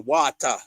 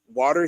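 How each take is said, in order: First: It is said in the local island accent. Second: It is said in a non-local, outside accent. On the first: This is how people here say it. "We say water" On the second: This is how people elsewhere say it. "we don't say water here"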